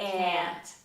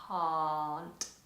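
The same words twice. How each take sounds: First: The vowel is long and forward, American-style. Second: The vowel is open and long, British-style.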